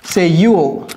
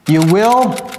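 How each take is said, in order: First: The words are merged into one short syllable. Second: Both words are said fully and separately.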